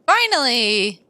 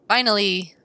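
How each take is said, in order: First: "Finally!" stretched slowly with a lift; "Finally!" said slowly, relieved; drawn-out relief. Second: Said in the usual way. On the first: Acted. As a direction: savor "Finally!" long and slow.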